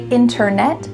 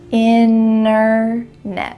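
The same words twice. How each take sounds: First: The middle T is clearly pronounced. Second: The middle T is dropped completely. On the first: This is how it sounds in slower speech. "with a clear T if you're speaking a little bit slower" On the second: This is how it sounds in fast speech. "we're going to cut out that T completely"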